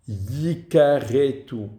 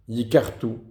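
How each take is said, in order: First: A short vowel is heard between r and t. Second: No vowel is heard between r and t. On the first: They will be destroyed. The speaker calls it right. "ils seront exterminés" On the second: They will destroy others. The speaker calls it wrong. "Et il y en a qui lisent yikartu"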